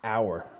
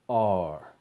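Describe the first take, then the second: First: The vowel is made with a closed, narrow throat. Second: The vowel is made with a wide, open throat. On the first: The speaker calls it wrong. "What we don't want to do is say hour" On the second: The speaker calls it right. "you're going to open up the throat, open up the, the, the cavity in your mouth"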